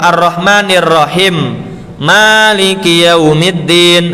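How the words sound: A breath pause separates Rahim from Maliki. The reader stops at the verse end. "Harusnya kan gitu"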